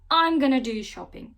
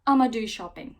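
First: 'Going to' is shortened to 'gonna'. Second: 'I am going to' is squeezed into 'I'ma'. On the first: "kısaltma şekline" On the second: "Amerikanlar bunu bir tık daha hızlı söylüyor"

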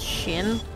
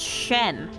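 First: The vowel sounds like the one in 'pin'. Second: The vowel sounds like the one in 'pen'. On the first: The speaker calls it wrong. "Not Shin" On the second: The speaker calls it right. "S-H-E-N. That's Shen"

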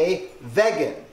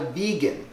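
First: It begins with a short 'veg' sound. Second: It begins with a long 'vee' sound. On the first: The speaker calls it right. "you should be a vegan" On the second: The speaker calls it wrong. "You're not a vegan"

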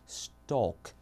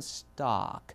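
First: The vowel is rounded, close to 'oh'. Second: The vowel is open, close to 'ah'. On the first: "영국은 그대로 stock. 오 발음에 가깝게" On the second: "미국은 stock. 약간 아 발음에 가깝게"

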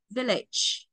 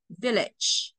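Both takes have the same delivery.

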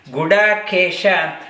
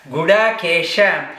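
Both takes have the same delivery.

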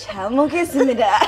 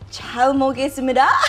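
First: It is said in an exaggerated soft, seductive tone. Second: It is said in a plain, neutral tone.

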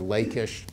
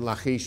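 First: The name is said in the English way. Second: The name is said in a non-English way. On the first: The speaker calls it wrong. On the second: The speaker calls it right.

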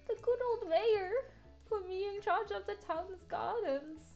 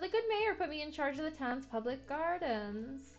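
First: It is said in a put-on old lady voice. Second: It is said in the speaker's normal voice.

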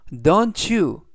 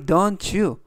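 First: The two words are said separately. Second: The two words are linked together.

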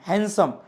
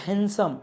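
No difference in how they are said.

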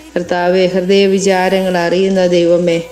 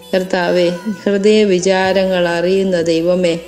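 No difference in how they are said.

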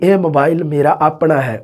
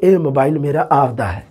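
First: 'Own' is said in the standard form apna. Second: 'Own' is said in the dialect form apda. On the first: "ਆਪਾਂ ਬੋਲੀਏ" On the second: "ਉਹ ਬੋਲਣਗੇ"

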